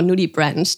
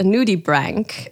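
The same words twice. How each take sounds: First: Nudibranch ending like the word "branch"; soft-ch pronunciation. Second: Nudibranch ending in a hard k, like "brank"; hard-k pronunciation. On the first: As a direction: say nudibranch as "noo-dee-branch". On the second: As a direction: say nudibranch as "noo-dee-brank". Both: Shown as a demonstration. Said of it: "depending how you want to pronounce it".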